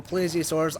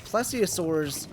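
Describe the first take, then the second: First: Plesiosaurs with a long "ay", PLAY-zee-uh-sors; alternate pronunciation. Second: Plesiosaurs with a short "e", PLESS-ee-uh-sors; alternate pronunciation. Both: Real, not acted. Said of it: "I don't know how you pronounce it".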